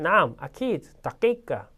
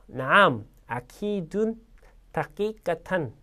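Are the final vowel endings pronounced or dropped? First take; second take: dropped; pronounced. First: Final vowels are dropped and words run together. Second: Every word-final vowel ending is fully pronounced. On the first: This is how it sounds in real conversation. "모음 없이 읽어볼게요" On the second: This is the formal reading with all vowels. "모음 그대로 읽겠습니다"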